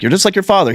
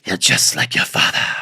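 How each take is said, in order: First: It is said in the mother's plain voice. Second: It is said in a sultry Morticia Addams voice.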